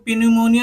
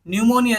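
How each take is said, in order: First: The word starts with a P sound. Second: The word starts with an N sound. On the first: The speaker calls it wrong. "इसको पी न्यूमोनिया नहीं बोलेंगे" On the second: The speaker calls it right. "पी जो है silent रहेगा"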